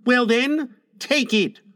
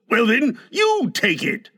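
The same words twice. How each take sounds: First: High-pitched challenge, "take it" in two parts; boy's dare. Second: High-pitched retort with "you" picked out; retorted dare. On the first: Son challenging father over medicine, high boyish dare. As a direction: dare him like a child. Boy dares his father. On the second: Father daring his son back, "you" stressed. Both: A narrator's reading.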